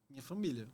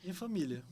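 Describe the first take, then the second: No difference in how they are said.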